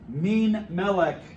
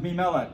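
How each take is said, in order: First: The n sound of the first word is pronounced. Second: The n sound of the first word is dropped. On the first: This is the older, fuller form. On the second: This form came from saying it quickly.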